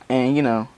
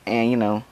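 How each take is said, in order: Both takes have the same delivery.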